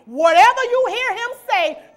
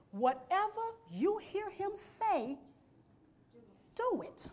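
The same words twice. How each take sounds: First: Shouted preacher's call; "Whatever you hear him say" shouted out full; loud command. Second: Quieter, slower echo of the line; "Whatever you hear him say" said softly and slowly; soft repeat. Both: Acted.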